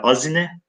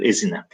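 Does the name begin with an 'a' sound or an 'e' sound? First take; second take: a sound; e sound. First: The first vowel is an 'a' sound. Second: The first vowel is an 'e' sound. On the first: This is the form written in the old text. "Azine burada yazılan şekli" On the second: This is how the name is pronounced today. "günümüzdeki telaffuzu nedir arkadaşlar?"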